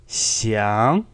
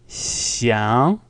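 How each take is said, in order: The two takes are said the same way.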